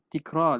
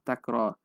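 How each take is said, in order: First: The first syllable has the vowel i. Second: The first syllable has the vowel a. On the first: The speaker calls it wrong. "orang kadang-kadang sebut tikrar. La. Hadha laisa bisahih" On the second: The speaker calls it right. "Jadi takrar ni taf'al"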